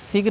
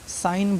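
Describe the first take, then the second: First: A g sound is pronounced in the word. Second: The g is silent in the word. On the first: The speaker calls it wrong. "इसको सिग्न नहीं" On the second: The speaker calls it right. "साइन बोलना है"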